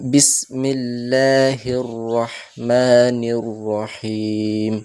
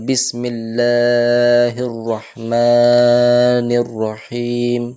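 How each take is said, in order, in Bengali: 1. দীর্ঘ স্বরটি শুধু এক মাত্রা ধরে রাখা হয়। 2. দীর্ঘ স্বরটিকে স্বাভাবিকের চেয়ে অনেক বেশি টেনে পড়া হয়। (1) "এক আলিফ টান রাখবো শুধু" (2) "টান বাড়িয়ে দেওয়া, এটা একটা ছোট ভুলের মধ্যে পড়ে"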